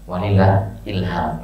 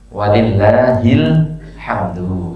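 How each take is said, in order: First: The phrase ends with the word 'ilham'. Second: The phrase ends with the word 'hamdu'. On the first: The speaker calls it wrong. "Yang salah tadi" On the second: The speaker calls it right. "Jadi yang benar"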